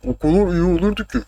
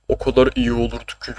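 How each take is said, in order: First: High, altered mock voice; "o kadar" with slurred, distorted vowels; put-on imitation voice. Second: Said in the usual way. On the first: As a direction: repeat it as a silly higher-pitched impersonation. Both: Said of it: "Bu şeye benzedi".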